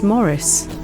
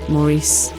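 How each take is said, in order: First: The stress is on the first syllable. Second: The stress is on the second syllable. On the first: A plain, simple pronunciation of the name. "Morris sounds a bit like Doris" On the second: A French pronunciation of the name. "the emphasis on the, uh... the French pronunciation"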